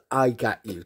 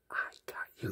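First: Said in the usual way. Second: Barely audible imitated whisper; mouthed whisper. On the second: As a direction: mouth it secretly, almost without sound. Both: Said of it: "Like, she mouthed".

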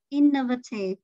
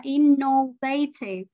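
First: Innovative as IN-nuh-vuh-tive; innovative, stress up front on IN; stress on first syllable. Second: Innovative as in-no-VAY-tive; innovative with a full middle vowel and stressed VAY. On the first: Shown as a demonstration. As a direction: model innovative with reduced middle vowels. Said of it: "Nhấn âm một". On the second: Retold or imitated. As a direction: show innovative with the mistaken round O. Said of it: "Nó không phải là inno".

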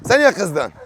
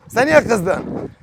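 First: Said in the usual way. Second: Very slow, coaxing question to a pet. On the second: Real, not acted. Asking the sulking bird, very slow and coaxing. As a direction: stretch "Sen niye kızdın" out gently.

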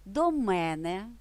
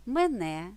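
First: До мене with мене stressed on the first syllable, ме́не; slow, lean on ме- in До мене; До мене said slowly, first syllable of мене stressed. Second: Мене with stress on the last syllable, мене́; Мене stressed at the end, rising. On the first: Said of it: "на перший склад". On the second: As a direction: put the weight on -не in Мене. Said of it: "наголос на закінченні". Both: Shown as a demonstration.

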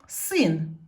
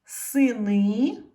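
First: Син as one loud, falling syllable; stressed single vowel. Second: Сини with a loud, long final И, rising; stress on last syllable. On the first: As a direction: hit the И in син. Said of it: "стала наголошеною". (наголос на И у слові син) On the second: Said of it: "щоб не наголошена е стала наголошеною". (наголос на останнє И у слові Сини) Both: Shown as a demonstration.

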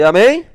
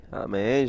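First: Loud high rising amém, like a preacher calling out; call to the audience. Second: Said in the usual way. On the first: Real, not acted. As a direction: shout the amém up as a question to the crowd. Chamando a resposta da plateia. (amém gritado e agudo, como um pregador chamando o público)

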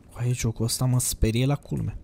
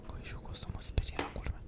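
First: Said in the usual way. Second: Very soft, voiceless whisper. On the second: Real, not acted. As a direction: whisper the confession of being scared. Whispers, then repeats aloud.

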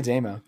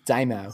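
First: Damo as "DAY-mo", with a long a; corrected pronunciation. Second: Damo as Aussie "DIE-mo"; Australian accent. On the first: Shown as a demonstration. Host giving a shout out, Damo said "DAY-mo". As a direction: say Damo like the start of Damon. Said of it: "shorten it to Damo". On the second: Acted. Host retrying the nickname, Damo in an Australian accent, "DIE-mo". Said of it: "The Aussie should be able to say this right".

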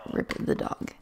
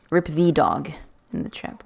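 First: Soft whispered little eulogy for the dog; mock-solemn whispered farewell; hushed mourning. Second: Said in the usual way. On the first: Real, not acted. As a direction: breathe it out like a tiny funeral. Mourning the dog, then repeating plainly.

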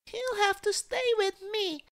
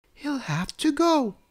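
First: Put-on very high little-girl voice; child crying out. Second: High, decisive storybook mum; mother's voice. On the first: Cecily begs to keep the crocodile, high-pitched plea. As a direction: insist in a squeaky child's voice. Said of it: "cried Cecily". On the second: Mummy tells Daddy the guest must leave, high mother's voice. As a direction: voice a mother ruling, pitched well up. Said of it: "said Mummy to Daddy". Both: A narrator's reading.

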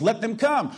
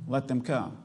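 First: Lifted high, the word come stressed and falling; proclaimed call. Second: Hushed, gentle repeat of "let them come."; softer echo. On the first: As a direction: announce "Let them come." like God's open invitation. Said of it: "God tells us". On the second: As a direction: let "let them come." settle quietly after a pause. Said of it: "Whosoever will". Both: Acted.

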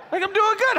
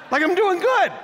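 First: Higher still, shouted out; shouted boast. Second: High, laughing self-praise; laughing boast. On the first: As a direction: shout it to the room. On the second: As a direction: laugh it off, proud. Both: Real, not acted. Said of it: "I have yet to call Bethany my sister".

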